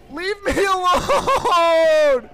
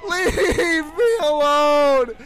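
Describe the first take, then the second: First: Slow, drawn-out shout from far off in the throat; mock creepy shout. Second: Slow, drawn-out sobbing yell; mock crying shout. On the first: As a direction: stretch every word like a haunted doll. Repeating the mannequin's line. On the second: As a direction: wail it like a haunted doll in tears. Repeating line, crying.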